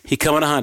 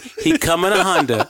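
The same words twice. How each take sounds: First: The phrase is said at a fast pace. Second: The phrase is said at a slow pace.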